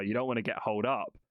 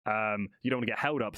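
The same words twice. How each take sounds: First: "holed" said with a long "ohld" vowel, like hold; "holed" slipped in for held, sounds like "hold"; mispronounced word. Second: "held" said with a short "hel" vowel, stressed; "held" corrected clearly as "hel-d"; corrected word. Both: Real, not acted.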